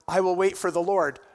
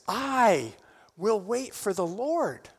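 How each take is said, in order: First: It is read flatly, without feeling. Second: It is declared with personal conviction.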